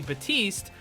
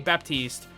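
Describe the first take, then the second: First: The P sound is left silent in the name. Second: The P sound is pronounced in the name. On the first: "if I don't say it" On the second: "you're not supposed to say the P, it's silent"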